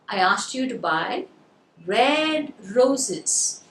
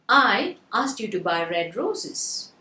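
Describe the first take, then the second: First: The word "red" is stressed. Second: The word "I" is stressed. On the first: The roses were meant to be red, not yellow. "So now you got the word red" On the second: It was me who asked you. "So the first word I was stressed"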